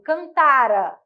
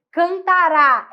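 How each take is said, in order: First: "cantara" with the middle TA stressed, final ra weak. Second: "Cantará" with a strong, stressed final RÁ. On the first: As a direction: say "cantara" stressing TA and letting ra fall away. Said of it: "a sílaba tônica é o tá". ("cantara" com tônica no TA e ra fraco) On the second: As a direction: push "Cantará" through to a loud last syllable RÁ. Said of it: "tônico, forte". ("Cantará" com o RÁ final tônico e forte) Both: Shown as a demonstration.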